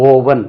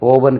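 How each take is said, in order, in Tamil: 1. முதல் உயிர் ஒலி நீண்ட 'oh' ஒலி. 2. முதல் உயிர் ஒலி நீண்ட 'oh' ஒலி.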